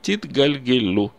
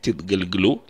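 First: The vowel before the final L is kept. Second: The vowel before the final L is dropped. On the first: The speaker calls it right. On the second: The speaker calls it wrong.

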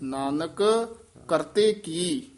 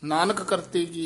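First: There is a short pause after the first word. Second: The words run on without a pause. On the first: The speaker calls it right. "Nanak ਇੱਥੇ ਵੀ ਠਹਿਰਾ ਦੇ ਦੇਣਾ ਹੈ" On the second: The speaker calls it wrong. "ਇਸ ਤਰ੍ਹਾਂ ਨਹੀਂ ਕਹਿਣਾ"

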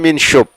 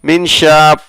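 First: The second syllable has an 'o' vowel. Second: The second syllable has an 'a' vowel. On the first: The speaker calls it wrong. "এক্ষেত্রে বলবেন না মিনশোপ" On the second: The speaker calls it right. "এক্ষেত্রে বলবেন মিনশাপ"

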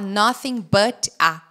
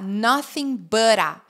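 First: The t in 'but' is a clear t. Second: The t in 'but' is a quick flap. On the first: The speaker calls it wrong. "Só que eu não vou falar nothing but a" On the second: The speaker calls it right. "Vai ficar nothing but a"

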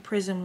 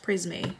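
First: It sounds like the English word prism. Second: It is said the French way, prisme. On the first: The speaker calls it wrong. "I can't believe I've been saying it wrong this whole time" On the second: The speaker calls it right. "It's Prisme"

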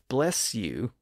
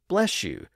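First: The end of 'bless' is a distinct S sound. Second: The end of 'bless' is an SH sound. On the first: "with a distinct S sound" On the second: "with an SH sound"

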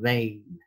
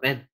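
First: The vowel glides like 'ay' in 'day'. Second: The vowel is a plain short 'e' sound. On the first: The speaker calls it right. "đọc là vein" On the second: The speaker calls it wrong. "không phải là ven"

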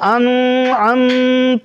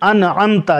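First: The n is held with a long nasal hum. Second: The n is passed quickly without nasal hum. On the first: The speaker calls it wrong. "انعمت پہ یہاں پہ گناہ کر دیتے ہیں، انعمت یا انعمت اس طرح پڑھتے ہیں، یہ غلط" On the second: The speaker calls it right. "آپ یہاں غنہ نہ کریں، انعمتا جلدی پڑھیں"

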